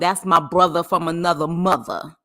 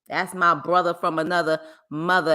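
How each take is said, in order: First: It is said in a New York accent. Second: It is said in the speaker's ordinary accent.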